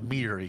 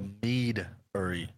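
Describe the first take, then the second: First: The first part sounds like 'meat'. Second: The first part clearly sounds like 'mead'. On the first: It sounds like a place that sells meat. The speaker calls it wrong. "Not meadery, because then they're like, oh, it's a little carniceria" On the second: It names a place that sells mead. The speaker calls it right. "Just got to make sure we emphasize the meadery"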